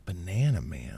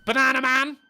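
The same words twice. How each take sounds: First: Lower, softer echo of the title; low mock voiceover echo; deep echo. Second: Higher, louder announcer call; hammed-up kids' show announcer; cartoon announcer. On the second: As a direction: call the title like a cartoon intro.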